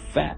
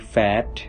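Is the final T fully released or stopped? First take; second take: stopped; released. First: The final T is held and not released. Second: The final T is fully released. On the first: "it's going to be a little bit stop T" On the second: "When we say fat"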